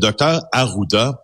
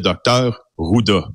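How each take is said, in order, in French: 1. Le nom commence par la syllabe 'A'. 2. Le nom commence directement par 'Ru'. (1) "le docteur Arruda" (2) "pour M. Legault, c'est le docteur Ruda"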